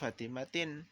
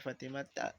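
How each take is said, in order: First: The word ends in an 'in' sound. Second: The word ends in a plain 'a' vowel. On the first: The speaker calls it wrong. "nggak boleh kita baca Fatimatin" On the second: The speaker calls it right. "kita bacanya Fatimata"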